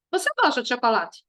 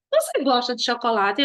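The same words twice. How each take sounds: First: "Você gosta de chocolate" as a falling statement; affirmative intonation. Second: "Você gosta de chocolate" with a rising end; questioning intonation. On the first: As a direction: assert "Você gosta de chocolate", don't ask. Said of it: "Aí você tá afirmando". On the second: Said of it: "Aí você tá perguntando". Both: Shown as a demonstration.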